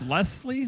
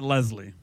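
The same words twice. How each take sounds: First: The middle consonant is a hissing s sound. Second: The middle consonant is a buzzing z sound. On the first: The speaker calls it right. "it's Leslie" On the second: The speaker calls it wrong. "not Leslie. There's no Z in there"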